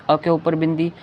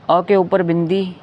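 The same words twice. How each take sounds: The two takes are said the same way.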